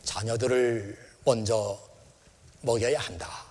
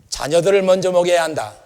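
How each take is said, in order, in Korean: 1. 따뜻하고 부드러운 말투로 말합니다. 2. 차갑고 무시하는 말투로 말합니다. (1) "인자하고 아주 마음이 너그러운 그런 마음을 가지고" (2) "그 여자를 제대로 보지도 않고 돌아서시면서"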